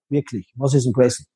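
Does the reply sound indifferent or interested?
indifferent. The reply sounds flat and indifferent.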